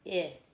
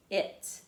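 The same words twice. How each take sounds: First: "It" split into short "i", then "t"; "It" sound by sound. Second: Said in the usual way. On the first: Shown as a demonstration. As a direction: pause between the two sounds of "It". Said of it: "Let's do it". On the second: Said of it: "pushed it out in one breath".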